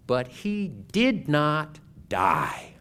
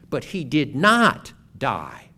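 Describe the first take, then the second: First: It is said calmly, without heat. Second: It is said with more heat and enthusiasm.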